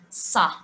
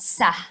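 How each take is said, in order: First: The s sound is heavy and emphatic. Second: The s sound is light and plain. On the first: The speaker calls it right. "Sa, not Sa" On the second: The speaker calls it wrong. "not Sa"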